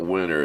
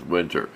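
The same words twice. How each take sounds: First: "winter" said as "winner", T left out; dropped T in winter. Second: "winter" with the T clearly pronounced; T sounded in winter. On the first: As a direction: say "winter" with a silent T. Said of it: "catch myself saying that. It's not winter". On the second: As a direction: say "winter" as win-ter, crisp T. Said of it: "It's not winter, it's winter". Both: Shown as a demonstration.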